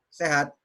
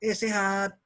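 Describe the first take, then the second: First: Said in the usual way. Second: SEHAT said as a friendly, interested greeting; engaged little check-in; livelier intonation. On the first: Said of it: "Dengan bilang". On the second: Shown as a demonstration. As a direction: greet someone with life in sehat.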